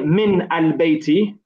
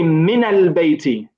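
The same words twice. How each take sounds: First: The n of min has no vowel after it. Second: The n of min is followed by an 'a' vowel. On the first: The speaker calls it wrong. "we don't say" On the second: The speaker calls it right. "we say min al bayti. So we pronounce it with a fatha"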